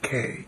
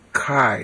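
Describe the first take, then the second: First: It is said with modern Greek pronunciation. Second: It is said with ancient Greek pronunciation. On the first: The speaker calls it wrong. "K is modern Greek" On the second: The speaker calls it right. "not K. K is modern Greek"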